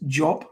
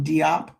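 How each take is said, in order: First: The name begins with a 'j' sound. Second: The name begins with a separate 'dee' sound. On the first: The speaker calls it right. "but it's Job" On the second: The speaker calls it wrong. "we'll call him Diop"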